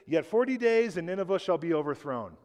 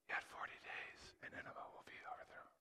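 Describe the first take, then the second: First: It is said plainly, as a normal reading. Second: It is said half-heartedly, pitifully, without conviction.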